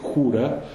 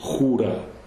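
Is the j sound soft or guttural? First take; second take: soft; guttural. First: The j is softer and further forward. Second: The j is guttural, far back in the throat. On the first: "I would say jura" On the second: "a Spaniard would say jura"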